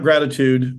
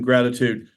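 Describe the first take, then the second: First: The stress is on the first syllable. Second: The stress is on the last syllable. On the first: "not gratitude" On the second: "with a you know emphasis on the you in gratitude"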